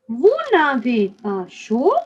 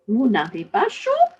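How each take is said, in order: First: The phrase is spoken at a slow pace. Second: The phrase is spoken at a faster pace. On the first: "I'm going to say this slowly" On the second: "And a little faster"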